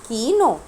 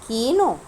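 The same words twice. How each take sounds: The two takes are said the same way.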